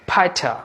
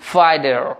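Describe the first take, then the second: First: British accent, silent final r, clear t. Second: American accent, sounded r, t like d. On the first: "British অ্যাকসেন্টে এই ওয়ার্ডটির উচ্চারণ হবে ফাইটা" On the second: "তাহলে American ফাইডার"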